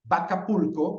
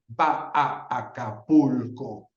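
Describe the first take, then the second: First: The three a vowels merge into one sound. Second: The three a vowels are said separately. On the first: The speaker calls it right. "Es más natural decir Acapulco" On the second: The speaker calls it wrong. "que decir va a Acapulco"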